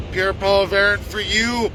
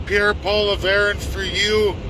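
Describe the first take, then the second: No difference in how they are said.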